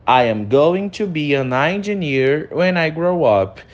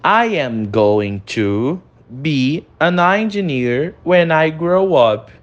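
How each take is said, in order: First: Said in the usual way. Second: Slow, careful "I am going to be an engineer when I grow up"; teacher modelling slowly; slow model reading. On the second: Shown as a demonstration. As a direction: read it slowly for the class. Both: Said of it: "Primeiro nós temos".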